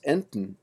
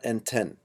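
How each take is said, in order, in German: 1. Das End-en ist abgeschwächt, ohne klaren Vokal. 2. Das End-en hat ein volles, klares e. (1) "the plural of ente is pronounced enten" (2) "not enten"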